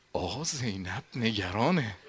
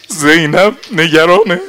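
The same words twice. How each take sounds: First: زینب نگرانه whispered, much softer. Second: نگرانه cried out high and loud; anguished outcry. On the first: Habib telling the companions in secret, whispered. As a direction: breathe it as a secret. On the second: Nafe crying that Zeinab is worried, loud. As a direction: wail زینب نگرانه at full voice. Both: Acted.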